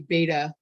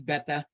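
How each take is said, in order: First: The first vowel differs from the vowel in 'bet'. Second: The first vowel sounds like the vowel in 'bet'. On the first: The speaker calls it wrong. "I know a lot of people say beta" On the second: The speaker calls it right. "it's really beta. ... alpha, beta, alphabet"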